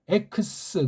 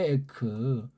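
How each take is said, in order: First: The word ends in a ks sound. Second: The word ends in a plain k sound. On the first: This form is used before a vowel. "자음 시그마라고 하는 것을 여기다 그냥 기름칠로 넣어서 발음해요" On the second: This is the basic form of the word. "원래 이게 에크잖아요"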